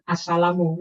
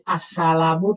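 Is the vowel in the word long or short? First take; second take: short; long. First: The vowel is kept short. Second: The vowel is held long.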